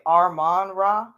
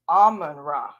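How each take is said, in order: First: The first word has an R sound after A. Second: The first word has no R sound after A. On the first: The speaker calls it wrong. "I keep on trying to say Armon Ra" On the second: The speaker calls it right. "but it's Amon Ra, right?"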